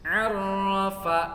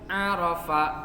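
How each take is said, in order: First: The middle consonant is doubled. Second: The middle consonant is single. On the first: The speaker calls it right. "Arafa ada tasydidnya" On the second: The speaker calls it wrong. "tidak ada tasydidnya"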